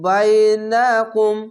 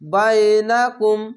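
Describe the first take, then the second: First: A vowel in the word is drawn out. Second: The vowels in the word are kept short. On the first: The speaker calls it wrong. "আমি টানের মতো পড়ে নিয়েছিলাম" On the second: The speaker calls it right. "অবশ্যই কোনো টান নেই"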